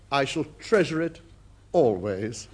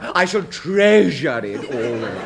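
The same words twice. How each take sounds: First: It is said plainly, without much feeling. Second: It is said dramatically, stressing treasure.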